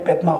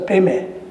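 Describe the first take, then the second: First: It is said with a d sound. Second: It is said without a d sound. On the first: This is the Sanskrit way of saying it. "if you pronounce it according to the Sanskrit" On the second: This is the Tibetan way of saying it. "Tibetan uh, pronunciation"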